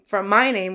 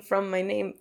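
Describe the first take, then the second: First: "my" stressed over "name". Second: Said in the usual way. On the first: Real, not acted. Clarifying where the nickname came from, stress on "my". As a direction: put the weight on "my" in "from my name". Restates, correcting the emphasis.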